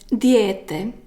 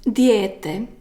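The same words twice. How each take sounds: First: It is said as one long ye sound. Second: The same.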